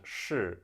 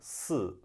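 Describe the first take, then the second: First: It starts with a curled-back sh sound. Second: It starts with a flat s sound. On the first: "是 to be" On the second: "more likely to sound like"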